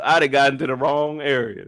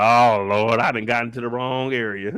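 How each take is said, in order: First: Lightly voiced Ellie retake; Ellie repeated. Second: Mock-pray like she picked the wrong car; lightly voiced scared Ellie, Lord help me; Ellie panicking. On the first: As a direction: slightly lower repeat of Ellie's line. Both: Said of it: "Ellie like".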